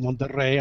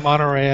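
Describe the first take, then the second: First: The name is pronounced the Spanish way. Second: The name is pronounced the English way. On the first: The speaker calls it right. "I said Monterrey. I'm being very careful with how I pronounce it" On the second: The speaker calls it wrong. "I did not say Monterrey"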